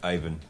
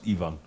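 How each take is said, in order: First: The name is said with an English-style pronunciation. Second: The name is said with a Russian-style pronunciation. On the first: The speaker calls it wrong. "not Ivan" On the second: The speaker calls it right. "it's pronounced Ivan"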